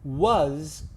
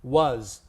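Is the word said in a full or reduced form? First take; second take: full; reduced. First: The word is said fully with open vowel. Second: The word is said quickly with reduced vowel. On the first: The speaker calls it wrong. "you see how much I move my mouth?" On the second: The speaker calls it right. "We just say was. We don't move our mouth very much"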